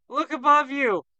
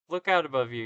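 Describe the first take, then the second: First: "Look above you!" yelled high and loud; anguished warning cry. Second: Said in the usual way. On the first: Acted. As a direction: shout the warning in panic. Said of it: "He cries out in anguish".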